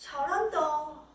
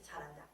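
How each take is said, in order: First: It is said with admiring, envious awe. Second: It is said flatly and bluntly.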